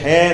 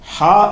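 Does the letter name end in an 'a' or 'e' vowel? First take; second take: e; a. First: The name ends in an 'e' vowel. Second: The name ends in an 'a' vowel. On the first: The speaker calls it wrong. "ஹேன்ற அந்த எழுத்துக்கு பேர் கிடையாது" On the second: The speaker calls it right. "ஹா என்பது தான் அந்த எழுத்துக்கு பெயர்"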